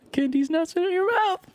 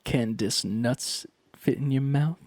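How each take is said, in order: First: Squeaky, much higher punchline voice; high-pitched meme delivery. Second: Said in the usual way. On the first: Shown as a demonstration. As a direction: jump way up high to sell the meme. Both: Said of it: "I can do the meme".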